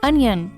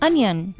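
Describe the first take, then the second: Both takes have the same delivery.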